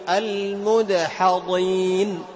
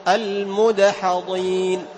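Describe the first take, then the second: Both takes have the same delivery.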